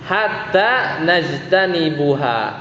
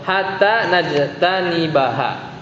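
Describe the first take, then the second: First: The verb ends with a 'u' vowel before -ha. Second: The verb ends with an 'a' vowel before -ha. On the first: The speaker calls it wrong. "bukan najtanibu" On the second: The speaker calls it right. "hatta di sini kan bikin mansub ... tapi hatta najtanibaha"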